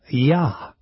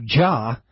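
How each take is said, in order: First: The name begins with a Y sound. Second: The name begins with a J sound. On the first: The speaker calls it right. "We say Praise You" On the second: The speaker calls it wrong. "We don't say Praise You"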